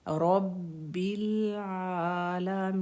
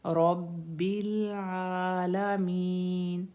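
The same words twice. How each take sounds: First: आलमीन with the final न held clearly, slow; clear held noon. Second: आलमीन with the final न cut short and unclear, slow; wrong, clipped noon. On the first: Teacher showing the right ending of आलमीन. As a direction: give the न of आलमीन full time. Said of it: "हमने नून को भी clear करना है।". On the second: Teacher showing the wrong way to end आलमीन. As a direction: swallow the न of आलमीन. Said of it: "ऐसे नहीं पढ़ेंगे।". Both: Shown as a demonstration.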